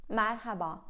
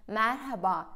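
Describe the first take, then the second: No difference in how they are said.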